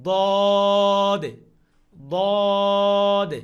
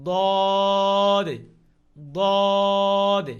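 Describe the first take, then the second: No difference in how they are said.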